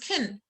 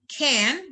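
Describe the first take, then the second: First: The word is reduced with a weak vowel. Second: The word has its full, stressed vowel. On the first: "I reduce it, I unstress it" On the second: "can becomes can"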